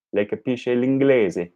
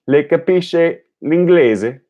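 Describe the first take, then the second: First: Le capisce l'inglese said as a statement, voice falling on l'inglese; falling statement, no lift on l'inglese; statement tune. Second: Le capisce l'inglese? with the voice climbing high on l'inglese; slow, high rising question tune on l'inglese. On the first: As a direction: say it flat and falling at the end, as a plain statement. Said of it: "any statement can be made into a question". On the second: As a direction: turn it into a question by lifting l'inglese at the end. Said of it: "allowing your voice to rise at the end". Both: Shown as a demonstration.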